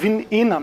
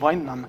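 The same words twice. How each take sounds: First: The first part sounds like 'win'. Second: The first part sounds like 'wine'. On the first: The speaker calls it right. "es heißt WinEnum" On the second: The speaker calls it wrong. "nicht WineNum"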